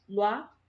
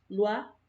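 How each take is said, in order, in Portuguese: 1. As duas vogais se juntam em uma só sílaba. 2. As duas vogais se juntam em uma só sílaba.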